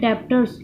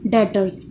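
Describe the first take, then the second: First: A 'b' sound is pronounced before the 't'. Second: No 'b' sound is pronounced before the 't'. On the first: The speaker calls it wrong. "यह लिखा तो जाता है डेप्टर्स" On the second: The speaker calls it right. "इसका ये जो बी होता है ये साइलेंट होता है"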